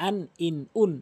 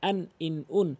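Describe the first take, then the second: The two takes are said the same way.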